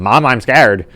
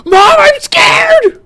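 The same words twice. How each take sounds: First: Raised voice, no fear; merely loud, not scared; emotionless loud voice. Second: Piercing, very high drawn-out shriek; full-out frightened wail; terrified scream. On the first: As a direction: say it a bit loudly, without feeling. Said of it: "he's just saying it in a loud voice". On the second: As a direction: scream in terror for your mother. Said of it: "I actually scream when I'm doing this". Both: Acted.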